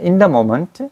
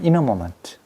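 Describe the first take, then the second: First: The word 'the' keeps a clear th sound. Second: The word 'the' blends into an n sound. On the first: The speaker calls it wrong. "in the moment 하면 얼마나 이제 거친가를 보라 이거지" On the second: The speaker calls it right. "근데 부드럽게 하면 in a moment"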